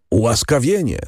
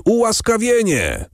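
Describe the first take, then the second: First: Crowd's cry, only mildly raised; a restrained first exclamation; okrzyk tłumu. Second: Okrzyk tłumu. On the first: (umiarkowany okrzyk ludu) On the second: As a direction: cry it out far higher, like a crowd. (wysoki, donośny okrzyk ludu) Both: A narrator's reading. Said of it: "zawołał lud".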